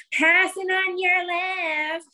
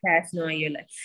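First: High, slow, sing-song call; passing cyclist calling out. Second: Said in the usual way. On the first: Retold or imitated. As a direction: stretch it out like an eager kid. Daughter calling while passing.

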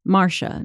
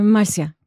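First: "Marcia" said as MAR-sha, with a sh sound; mispronounced name. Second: "Marcia" said as mar-SEE-ah, with an s and no sh; own name pronounced properly. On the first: Retold or imitated. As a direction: say "Marcia" the English way, two syllables, MAR-sha. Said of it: "that's not my name". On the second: Acted. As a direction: say "Marcia" in three syllables, higher and louder, mar-see-a. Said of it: "how do you say your name".

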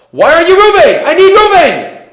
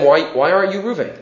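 First: High, loud frustrated shout of "Reuben"; mock screaming. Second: Said in the usual way. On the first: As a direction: yell it like you've lost patience searching the crowd. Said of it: "Starts screaming at them". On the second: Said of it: "So does he start screaming at them".

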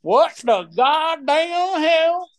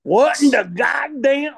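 First: Very slow hammed-up southern drawl, pitched up; exaggerated southern accent, drawn out. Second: First try at southern drawl. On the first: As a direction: stretch every word in a mock southern drawl. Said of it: "I gotta get my southern drawl accent right here". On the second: Pretend. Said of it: "wait, wait, wait".

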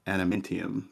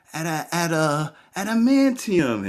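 First: Said in the usual way. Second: High, halting fake recall; feigned groping for a word. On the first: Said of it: "I know right away. The answer is". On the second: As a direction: stumble towards ADAMANTIUM as if unsure. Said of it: "I was trying to hide".

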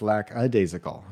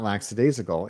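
First: "lackadaisical" said as LACK-a-daisical. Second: "lackadaisical" said as LAX-a-daisical; added S. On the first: Podcaster correcting himself, "lackadaisical" as lack-a-daisical. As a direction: say "lackadaisical" with k then vowel, no s. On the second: Podcaster showing his lifelong mistake, "lackadaisical" as laxadaisical. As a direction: slip an s into "lackadaisical". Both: Shown as a demonstration. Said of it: "There's no S in there".

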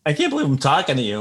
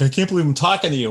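First: Starstruck. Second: Starstruck echo. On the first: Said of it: "And I'm like". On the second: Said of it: "And he's like". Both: Retold or imitated.

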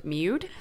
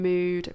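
First: "Mood" said as "myood"; "Mood" turned into "myood"; playful mispronunciation. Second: Said in the usual way. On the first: Shown as a demonstration. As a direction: say "Mood" with a y-glide, like the start of "music". Playful echo of "music.

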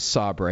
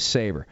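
First: Sabre said as "SAH-bray"; French-style pronunciation. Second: Sabre said as "SAY-ber"; English pronunciation. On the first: Recalling the mistaken printer name, Sabre as "SAH-bray". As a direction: say Sabre with an "ah" and a final "ray". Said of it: "was it Sabre or Sabre". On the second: Correcting the printer company's name, Sabre as "SAY-ber". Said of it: "they thought it was Sabre". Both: Shown as a demonstration.

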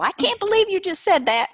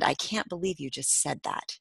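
First: High, loud hammed-up Southern drawl; exaggerated Southern twang, pitched way up. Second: Said in the usual way. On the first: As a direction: play the title as an exclaiming Southerner. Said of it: "say them in a Southern drawl".

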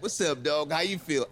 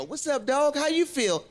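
First: Cool greeting. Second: High, eager cheesy greeting. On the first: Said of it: "then you meet one". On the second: Friends describe a Virgo's greeting, high and goofy. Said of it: "friends who told you about Virgos". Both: Retold or imitated.

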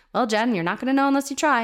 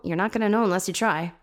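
First: Lightly voiced dad, pitched higher; a hint of a parent lecturing his kid; dad's advice. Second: Said in the usual way. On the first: Dad telling his kid to just try, lightly imitated. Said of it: "my dad would say that to me".

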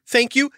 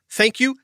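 Both takes have the same delivery.

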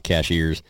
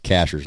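First: Cashiers said like the word cashiers, ca-SHEERS; common mispronunciation. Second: Cashers said as CASH-ers, two syllables, no "ee" sound; correct local pronunciation. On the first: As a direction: stress the second syllable of Cashiers, SHEERS. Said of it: "not Cashiers". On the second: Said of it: "That's pronounced Cashers". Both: Shown as a demonstration.

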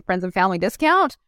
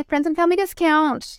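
First: Said in the usual way. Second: High, put-on salesy offer; mock sales offer. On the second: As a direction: offer it like an awkward seller. Acted sales offer, then denied.

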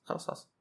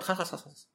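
First: "خلاص، خلاص" trailing away almost to nothing; fading brush-off. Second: Quick, high "خلاص، خلاص" waving it off; dismissive brush-off. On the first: Latecomer's brush-off fading as he avoids it. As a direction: let the dismissal die out under the breath. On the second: Latecomer brushing off his friend's complaint, dismissive. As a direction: brush the complaint aside, pitched up. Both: Retold or imitated. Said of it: "avoidant personality disorder اللي يجيك متأخر".

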